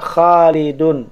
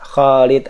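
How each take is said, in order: First: The name ends with a nasal '-un' ending. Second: The name ends on a bare consonant. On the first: The word carries its full case ending. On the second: The word is read in pausal form. "Ini saya baca wakaf dulu ya"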